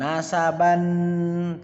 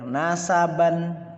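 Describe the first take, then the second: First: The final syllable's vowel is drawn out long. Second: The final syllable's vowel is short. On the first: The speaker calls it wrong. "bukan nasaban, tidak" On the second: The speaker calls it right. "Jadi baca pendek"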